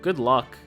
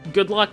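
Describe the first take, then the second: First: It is said in a sarcastic tone. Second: It is said in a sincere tone.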